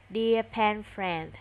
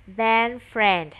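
First: Slow model reading. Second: Said in the usual way. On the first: Shown as a demonstration.

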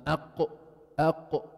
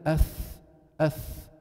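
First: أق cut off sharply, no airflow after; شدة: أق مقطوع; hard stop qaf. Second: أث with air hissing on; رخاوة: أث بجريان الصوت; flowing thaa. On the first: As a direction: clip أق shut to contrast with أث. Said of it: "ما قدرت أقطع الصوت... مثل لما أقول أق". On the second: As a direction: let أث run out without stopping. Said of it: "ما قدرت أقطع الصوت تمامًا". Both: Shown as a demonstration.

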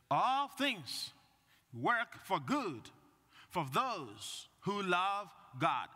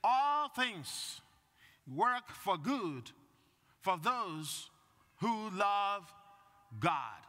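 First: Slow, weighty, phrase by phrase; slow emphatic reading again. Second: Each phrase set apart, slow and weighty; slow emphatic reading. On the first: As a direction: let each phrase land. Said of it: "repeats the reading". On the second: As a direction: read it out like scripture, pausing after each phrase. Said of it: "the second reading today says". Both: Shown as a demonstration.

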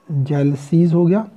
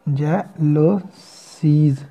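First: Said in the usual way. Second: Very slow, stretched pronunciation; drawn-out demo word. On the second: Shown as a demonstration. Teacher sounding out jealousies for students, slowly. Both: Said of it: "साथ में circle एक add कर देंगे".

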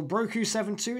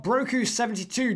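First: "seven two" said as two separate digits. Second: "seventy-two" said as one whole number; number read whole. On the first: Host offering another pronunciation, digit by digit. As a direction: read "seven two" digit by digit after "Broku". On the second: Host checking a guest's name, number read whole. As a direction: say "seventy-two" as a normal number after "Broku". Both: Shown as a demonstration. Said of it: "a way you prefer that to be pronounced".

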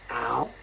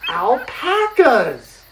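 First: "Alpacas" in three separate beats, al, pa, cas; teacherly breakdown of "Alpacas"; syllable by syllable. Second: "alpacas" drawn out, high and loud; excited emphasis. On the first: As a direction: sound out "Alpacas" low and softer, pausing between syllables. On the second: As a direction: announce "alpacas" with big, slow excitement. Teacher says word before breakdown. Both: Shown as a demonstration.

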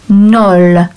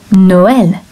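First: "Nol" as one drawn-out syllable; "Nol" in one long beat; one-syllable mispronunciation. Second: "Noël" in two syllables, no-EL; "Noël" with the second vowel pronounced on its own; two separate vowels. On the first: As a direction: say "Nol" with a single vowel, no break. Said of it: "it might be pronounced". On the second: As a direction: give "Noël" two beats, sounding the E separately. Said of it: "two syllables or two beats". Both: Shown as a demonstration.

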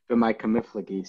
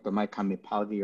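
First: "B'mai kamiflagi" with f, fla-gi; yeshivish pronunciation. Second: "B'mai kamipalgi" with a p, pal-gi; correct Aramaic pronunciation. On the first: Teacher says it like people learn here, "kamiflagi" in yeshivish. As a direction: say "kamiflagi" with FLA replacing pal. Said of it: "the yeshivish way people learn here". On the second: Teacher contrasts it with yeshivish, "kamipalgi" in correct Aramaic. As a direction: sound out "kamipalgi" with PAL, not fla. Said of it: "speaking Hebrew correct Aramaic". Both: Shown as a demonstration.

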